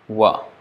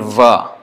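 First: It starts with a w sound, Gujarati-style. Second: It starts with a v sound, strict Sanskrit.

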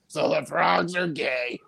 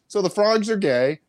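First: The voice is shaky and strained. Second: The voice is plain and steady. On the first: The speaker calls it right. "He kind of said it like" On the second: The speaker calls it wrong. "he didn't really say it like that"

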